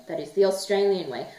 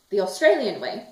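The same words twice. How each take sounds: First: The pushed slightly in the Australian way; the Australian way, a light stress on the. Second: Said in the usual way. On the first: Shown as a demonstration. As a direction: lean lightly on the word the to insist.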